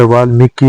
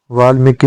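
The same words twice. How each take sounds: First: वाल्मीकि with a clear mee; correct vowel. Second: वाल्मीकि said as "vaalmeki"; wrong vowel. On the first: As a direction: say वाल्मीकि as "vaalmeeki". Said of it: "होता है". (वाल्मीकि में स्पष्ट मी) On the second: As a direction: loosen मी to me in वाल्मीकि. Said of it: "नहीं होता". (वाल्मीकि में मे जैसा) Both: Shown as a demonstration.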